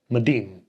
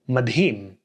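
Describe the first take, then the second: First: The d goes straight into the vowel, no h. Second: An h sound is heard after the d. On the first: "pronounced as just madim" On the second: "So we get madhim"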